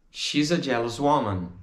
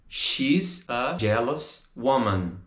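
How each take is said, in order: First: "She's a jealous woman" in one linked run; joined up. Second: "She's, a, jealous, woman" with gaps; slow, separated model. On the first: Teacher repeats the answer, words joined. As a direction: link "She's a" and carry on without gaps. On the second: Teacher models the answer, word by word. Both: Shown as a demonstration.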